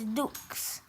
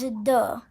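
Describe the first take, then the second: First: The word ends with a 'ks' sound. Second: The word ends on a vowel sound. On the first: The speaker calls it wrong. "You can't say two is dukes" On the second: The speaker calls it right. "Two is de"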